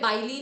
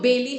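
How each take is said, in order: First: The first syllable sounds like 'buy'. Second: The first syllable sounds like 'bay'. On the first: The speaker calls it wrong. "बाइली नहीं है" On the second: The speaker calls it right. "तो बेली है"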